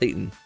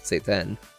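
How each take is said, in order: First: The name sounds like the English word Satan. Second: The name sounds like say-ten, with a clear 'ay'. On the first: The speaker calls it wrong. "Not Satan Gokumon" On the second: The speaker calls it right. "but Seiten"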